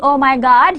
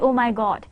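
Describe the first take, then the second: First: One part is stressed very heavily. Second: The stress is spread evenly and naturally. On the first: The speaker calls it wrong. "instead of saying oh my God" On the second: The speaker calls it right. "you must say oh my God"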